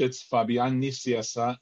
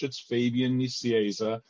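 First: The name is pronounced with Spanish sounds. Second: The name is pronounced with English sounds. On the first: "The way I say it is in Spanish" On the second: "In English"

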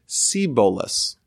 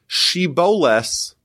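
First: The word begins with an 's' sound. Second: The word begins with an 'sh' sound. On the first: The speaker is from the tribe of Ephraim. The speaker calls it wrong. "they will pronounce it Seboles" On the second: The speaker is not from the tribe of Ephraim. The speaker calls it right. "the sh sound"

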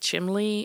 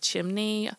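First: It uses the older variant pronunciation. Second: It uses the common standard pronunciation. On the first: Some older people say it this way. "why some people say chimney" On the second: Most people say it this way. "instead of chimney"

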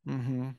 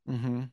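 Both takes have the same delivery.

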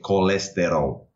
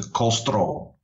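First: The word is said fully, with all vowels relaxed. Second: The word is said compressed, with vowels squeezed out. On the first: This is how it is said in Brazil. "here in Brazil, it's pretty similar. You say colesterol" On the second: This is how it is said in Portugal. "in Portugal, that gets condensed down to colesterol"

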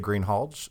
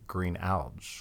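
First: The h sound in the middle is pronounced. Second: The h sound in the middle is silent. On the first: "some people say Greenhalge" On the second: "So some don't use the H"

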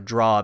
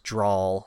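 First: It ends on the plain aw vowel. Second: An L sound is added after the aw.

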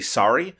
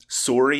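First: The vowel has an open American 'sah' sound. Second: The vowel has a rounded Canadian 'sore' sound. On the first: This is the pronunciation the speaker uses now. The speaker calls it right. "I say sorry because my wife is an American" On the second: This is the pronunciation the speaker has given up. The speaker calls it wrong. "I don't say sorry anymore"

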